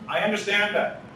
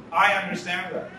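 No difference in how they are said.

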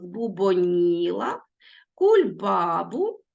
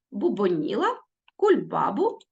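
First: Бубоніла and кульбабу drawn out slowly, stressed syllables held; slow careful dictation of the stressed syllables. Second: Said in the usual way. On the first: Shown as a demonstration. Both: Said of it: "Не забудьте наголос".

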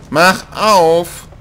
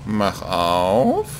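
First: "Mach" punched high and loud; demanding yell, "Mach" hit hard; impatient shout. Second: Said in the usual way. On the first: Real, not acted. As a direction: bark "Mach auf" at the door.

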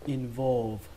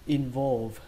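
Both takes have the same delivery.

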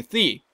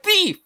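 First: Said in the usual way. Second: High mock cry of thief; mock yell. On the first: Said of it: "You were yelling". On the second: Player mimics the peddler crying thief, high mock yell. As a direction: squeal it like a robbed victim. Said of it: "You were like".

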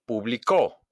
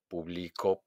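First: "publicó" punched on the last CÓ; stress on final CÓ. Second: Soft, low "publicó", weight on BLI instead of CÓ; stress on middle BLI. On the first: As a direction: land hard on CÓ in "publicó". ("publicó" con golpe de voz en CÓ) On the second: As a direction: lean softly on BLI in "publicó". ("publicó" suave, acentuado en BLI) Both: Shown as a demonstration. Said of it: "hago un golpe de voz".

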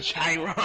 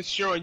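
First: Chiron said as "SHY-ron", mocking the wrong way; mocking mispronunciation. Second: Chiron said as "SHEH-ron", correcting him; correct pronunciation. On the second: Shown as a demonstration. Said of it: "you idiot".

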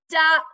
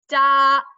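First: "duck" said clearly from front to back of the tongue; "duck" modeled for kids to copy. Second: "Duck" stressed and loud, tongue moving front to back; "Duck" demonstrated for children to repeat. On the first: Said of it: "we start with our tongue in the front". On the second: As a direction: punch out "Duck" clearly. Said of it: "we go to the back". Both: Shown as a demonstration.

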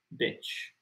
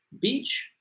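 First: "beach" cut to a short i, like bitch, very soft; short vowel. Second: "Beach" with a long ee, pitched up; long vowel. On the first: Teacher showing the rude other word, soft short-vowel "beach". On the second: Teacher contrasting playa with the rude word, long-ee "Beach". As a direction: say "Beach" higher, with the ee of see. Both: Shown as a demonstration. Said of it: "la otra palabra es más corta".

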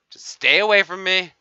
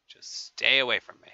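First: Shouted, higher playful warning; hammed-up shouted keep-away; loud warning. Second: Said in the usual way. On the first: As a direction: yell it to keep them back. Warning players to back off.

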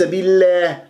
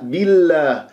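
First: Wrong بالله with a tilted toward e; tilted alif. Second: Slow بالله with an open, untilted a; pure open alif. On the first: Teacher showing what to avoid, tilted alif in بالله. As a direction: bend the long a of بالله to an e. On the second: Teacher correcting the error, pure alif in بالله. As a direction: hold the a of بالله straight and open. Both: Shown as a demonstration. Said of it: "لا تميل صوت الألف".

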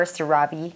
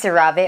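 First: CeraVe ending in a "vee" sound; CeraVe as ser-AH-vee. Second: CeraVe ending in a "vay" sound; CeraVe as ser-a-VAY. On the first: Unsure vlogger trying the name, CeraVe as "ser-AH-vee". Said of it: "if it's CeraVe or CeraVe". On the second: Unsure vlogger trying the name, CeraVe as "ser-a-VAY". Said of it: "I don't know if it's". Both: Shown as a demonstration.

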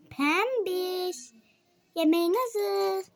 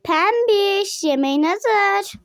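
First: Softer call. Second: Sing-song call to dinner. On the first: Mother calls Pembiş a second time, quietly. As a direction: call again, much softer, almost to herself. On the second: Mother calls Pembiş to come eat, calling out. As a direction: call the name out brightly across the room. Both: Acted.

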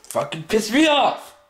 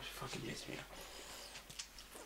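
First: Angry outburst. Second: Slow, hissed whisper, holding it in. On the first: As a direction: pitch jumps up, blurting it out. Outburst after the whispers. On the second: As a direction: drag it out under the breath. Whispered before the outburst. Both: Real, not acted.

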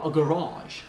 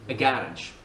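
First: "garage" said ga-RAAGE, second syllable long; second-syllable stress. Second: "garage" said GA-rage, first syllable stressed. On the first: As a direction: draw out RAGE in "garage". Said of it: "et pas a garage". (« garage » accentué sur la deuxième syllabe) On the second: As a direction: hit GA in "garage". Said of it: "moi je dis a garage". (« garage » accentué sur la première syllabe) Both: Shown as a demonstration.

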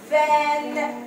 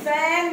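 First: فان starting with a voiced V; V sound. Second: فان starting with an unvoiced F; F sound. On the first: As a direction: say فان as English van, slowly, buzzing the v. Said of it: "فان شاحنة". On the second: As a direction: say فان as English fan, drawn out. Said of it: "كلمة تانية اللي هي كلمة مروحة". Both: Shown as a demonstration.

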